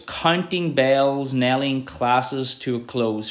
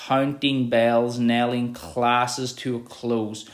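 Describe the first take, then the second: First: Very slow, stretching the vowels; slow, lingering poetry reading; slow drawn-out reading. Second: Very slow, stretched vowels; slow, lingering reread; slow drawn-out reading. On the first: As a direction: draw out each long vowel. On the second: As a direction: let the O sounds ring long. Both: Shown as a demonstration. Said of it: "The O's there really, um, create that long sentence".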